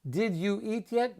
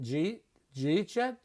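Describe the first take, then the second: First: Each word is said separately and fully. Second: The first words are run together into one syllable.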